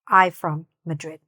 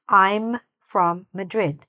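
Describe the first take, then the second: First: The 'm' sound after I is dropped. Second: The 'm' sound after I is clearly heard. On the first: The speaker calls it wrong. "not I from Madrid. ... That would be incorrect" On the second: The speaker calls it right. "we need to hear that last part"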